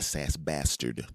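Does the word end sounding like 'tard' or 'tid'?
tard. The last syllable is said as 'tard'. The speaker calls it wrong. "you're not a SASBastard"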